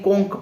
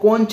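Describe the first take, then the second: First: The word ends with a 'k' sound. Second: The word ends with a 'ch' sound. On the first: The speaker calls it right. "कोंक पढ़ते हैं" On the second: The speaker calls it wrong. "इसको कोंच नहीं"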